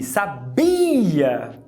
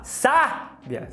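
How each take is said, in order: First: The stress is on the second syllable. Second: The stress is on the first syllable.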